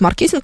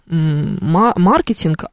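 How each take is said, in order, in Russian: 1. Ударение на втором слоге. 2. Ударение на первом слоге. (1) "нам удобнее говорить «маркетинг»" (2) "в оригинале-то мы говорим «маркетинг»"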